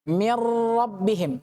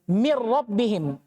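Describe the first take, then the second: First: The sound before the r is held longer. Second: It moves straight into the r without holding. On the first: The speaker calls it wrong. "tidak boleh" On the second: The speaker calls it right.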